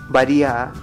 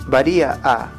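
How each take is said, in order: Both takes have the same delivery.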